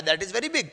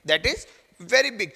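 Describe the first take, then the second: First: Said in the usual way. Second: Pause, then land firmly on VERY BIG; slow, deliberate VERY BIG; emphatic repeat. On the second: Real, not acted. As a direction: stress on VERY BIG, slowly. Teacher repeats the point emphatically.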